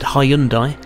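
The name is said with a British pronunciation. "here in the UK, I've always said"

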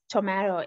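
It is said with a British pronunciation. "is pronounced as tomato in British English"

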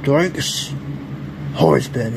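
It is said in a growly, monstrous put-on voice.

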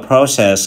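It is said in a British accent. "tiếng Anh người Anh đọc là"

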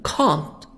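It is said in a British accent.

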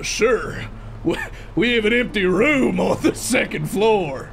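It is spoken in a Southern US accent. "I gave him a southern accent"

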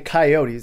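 It is said in the general pronunciation. "South Dakotans don't say coyotes"

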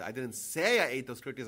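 The stress is on the word 'say'. The speaker may have only thought it. "I might have thought of it"

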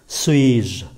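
The final je is said lightly, unstressed. The speaker calls it right. "Chữ je này đọc nhẹ"

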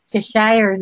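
The name is said the Philippine way. This is how people in the Philippines are used to saying it. "when you're here in the Philippines, it's Cheshire"

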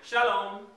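It sounds inviting, welcoming someone in.

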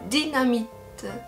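It is said with a French pronunciation. "En français, on va prononcer ça dynamite"

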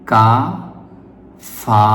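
The syllables are said apart with a break. "প্রথমে প্রতিটি শব্দ ওয়ান বাই ওয়ান মানে ভেঙে ভেঙে পড়বেন।"

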